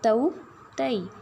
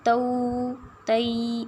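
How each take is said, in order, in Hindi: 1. स्वर की ध्वनि को छोटा और हल्का रखा जाता है। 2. स्वर की ध्वनि को लंबा खींचा जाता है।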